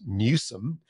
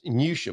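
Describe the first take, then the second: First: The name ends with a 'som' sound. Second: The name ends with a 'sham' sound. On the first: The speaker calls it right. "which of course is Newsom" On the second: The speaker calls it wrong. "you mispronounced Newsham"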